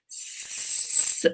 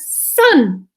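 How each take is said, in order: First: The word is stretched out slowly. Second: The word is said quickly.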